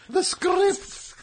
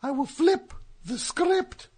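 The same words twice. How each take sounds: First: "script" said with a trilled r; rolled r. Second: "script" with a rolled r. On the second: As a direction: roll the r in "script". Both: Acted. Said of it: "When did you start rolling your R's?".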